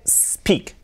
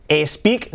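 First: "speak" begun straight on a long S, no vowel before it; starting with S. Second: "speak" mispronounced with an E in front, "espeak"; wrong initial E. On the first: Teacher modelling for learners, "speak" starting cleanly on S. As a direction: hiss the S first, then "speak". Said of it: "empezando por ese". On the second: Teacher showing learners the mistake, "speak" said as "espeak". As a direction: add a Spanish E sound before the S of "speak". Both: Shown as a demonstration.

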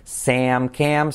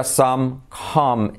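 First: SAM, CAM with "eh-a", like "seh-am, keh-am"; front, gliding vowel in SAM and CAM; previous vowel. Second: SOME, COME with a short open "ah", like "sam, kam"; no glide in SOME and COME; new vowel. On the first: Teacher contrasting with the earlier vowel, front "ea". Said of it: "diferente que sería con el anterior". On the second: Teacher contrasting the new vowel, plain "ah". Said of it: "Aquí sería". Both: Shown as a demonstration.

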